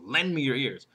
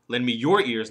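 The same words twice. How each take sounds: First: The word lend is stressed. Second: The word your is stressed. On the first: The request itself is what matters. "First one is what I want" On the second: Give your own, not someone else's. "The third one, not somebody else's ears"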